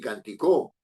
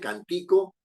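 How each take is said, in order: First: The stress is on the last syllable. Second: The stress is on the middle syllable. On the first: "ni canticó" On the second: "uno no dice cantico"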